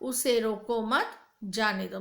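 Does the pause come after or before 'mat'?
after. The pause comes after the word 'mat'. Do not stop him; let him go. "मतलब उसे मत रोको, जाने दो"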